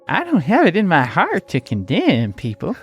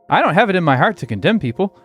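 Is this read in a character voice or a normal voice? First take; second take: character; normal. First: It is read in a put-on character voice. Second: It is read in the speaker's normal voice.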